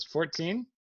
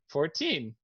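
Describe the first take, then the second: First: FOURTEEN echoed as a rising question; acted questioning FOURTEEN, tune going up; surprised echo. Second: FOURTEEN stated with a falling tune; acted plain reply of FOURTEEN; matter-of-fact answer. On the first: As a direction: query FOURTEEN in mild disbelief. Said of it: "And she goes". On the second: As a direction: answer FOURTEEN simply, landing down. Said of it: "How old are you then?".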